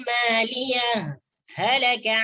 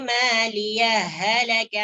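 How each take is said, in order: First: A brief stop separates the two words. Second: The two h sounds merge without stopping. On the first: "Berhenti sejenak, ... tidak boleh mengambil nafas" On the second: "boleh dibaca idgham ... huruf ha yang pertama ... dimasukkan ke dalam huruf ha yang kedua"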